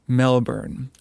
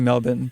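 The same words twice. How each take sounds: First: Melbourne is said in a non-Australian pronunciation. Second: Melbourne is said in an Australian pronunciation. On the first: "I get crap about how I pronounce Melbourne" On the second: "They say Melbourne, but I'm not going to do that because I don't have an Australian accent"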